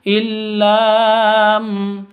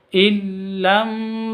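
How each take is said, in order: First: The vowel after the double l is drawn out long. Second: The vowel after the double l is kept short. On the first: The speaker calls it wrong. "tidak boleh" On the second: The speaker calls it right. "yang betul"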